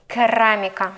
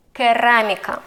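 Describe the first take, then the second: No difference in how they are said.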